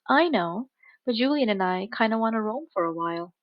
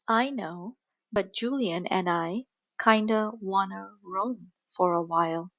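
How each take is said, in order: First: The sentence is spoken at normal speed. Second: The sentence is spoken slowly. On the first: "then at a normal speed" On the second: "First at a slow speed"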